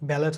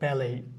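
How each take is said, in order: First: The word ends with a t sound. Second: The word ends without a t sound. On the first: The speaker calls it wrong. "ব্যালেট হয় না" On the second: The speaker calls it right. "এটা উচ্চারণ হচ্ছে কি ব্যালেই"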